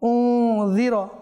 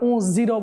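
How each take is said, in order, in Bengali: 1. ব্যঞ্জনটি নরম 'dh', জিভের ডগা দাঁতে ঠেকানো। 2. বরং ব্যঞ্জনটি গুঞ্জনরত 'z' ধ্বনি। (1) "জাল নরম হবে, জিহ্বার মাথা এটা উপরের দাঁতের বিতর্গত কিনারায় থাকবে" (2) "যা করে দিলাম"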